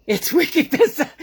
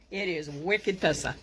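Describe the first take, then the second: First: Loud, high Boston accent showing off the slang; hammed-up Boston accent, higher and louder. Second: Said in the usual way. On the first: Shown as a demonstration. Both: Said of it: "as they say here in Boston".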